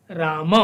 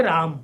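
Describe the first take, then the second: First: राम with the final a fully sounded; full Sanskrit pronunciation. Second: राम with the final a dropped, Hindi style; Hindi pronunciation. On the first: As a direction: say राम ending on a clear short a. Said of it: "तब हम यहाँ राम नहीं बोलते हैं बल्कि". (पूरा संस्कृत उच्चारण, अंत में अ) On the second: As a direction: say राम short, no final vowel. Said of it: "इसी शब्द को जब हम संस्कृत में". (हिंदी उच्चारण, अंतिम अ नहीं) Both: Shown as a demonstration.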